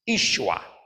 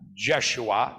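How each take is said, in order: First: The name begins with a Y sound. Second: The name begins with a J sound. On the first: The speaker calls it right. "the appropriate word and pronunciation from the Aramaic is Yeshua" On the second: The speaker calls it wrong. "not Jeshua"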